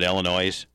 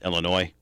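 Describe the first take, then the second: First: The word ends with an audible s sound. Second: The word ends without an s sound. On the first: The speaker calls it wrong. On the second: The speaker calls it right.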